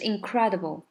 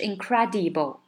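First: Stress on 'cre', other syllables short and reduced. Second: The unstressed syllables are said fully and evenly. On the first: The speaker calls it right. "它的重音在cra 上面，所以呢其他地方都很快" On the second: The speaker calls it wrong. "它不是incredible"

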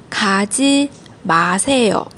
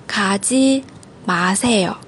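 No difference in how they are said.

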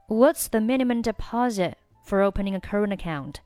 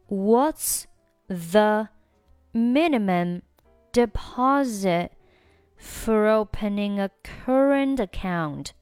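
First: The sentence is read at a fast pace. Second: The sentence is read at a slow pace. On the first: "下面加快速读。" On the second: "整句话我们再慢速读一下。"

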